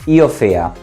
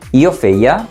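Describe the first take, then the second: First: The verb is said with one vowel dropped. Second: The verb is said with all its vowels.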